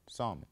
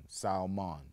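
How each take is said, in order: First: "Salmon" without the L, SAM-mon; silent L. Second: "Salmon" with the L said, SAL-mon; "Salmon" with a clear L, sal-mon; L sounded. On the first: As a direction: drop the L in "Salmon". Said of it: "I say salmon". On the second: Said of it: "It's an L in the word". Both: Shown as a demonstration.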